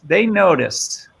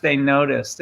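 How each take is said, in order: First: Slow, grand stage delivery; milk it like a hammy stage actor; thespian voice. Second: Said in the usual way. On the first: Shown as a demonstration. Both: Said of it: "give me your best thespian voice".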